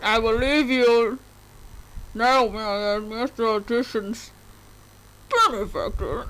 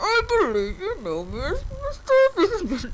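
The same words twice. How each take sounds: First: Bane voice. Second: A higher, hammed-up imitation of Bane's voice; mock the movie villain's muffled voice; Bane impression. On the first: Acted. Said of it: "Is that how Bane sounds like?". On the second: Player imitating Bane for friends, hammed-up and higher. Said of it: "doesn't he talk like that in the movie?".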